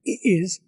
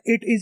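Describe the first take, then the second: First: The t sound in 'it' is dropped. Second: The t sound in 'it' is clearly pronounced. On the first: This is a British-style feature. "ये skip कर दिया" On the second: This is the usual local way of saying it. "हमारे यहाँ इट is बोलते हैं"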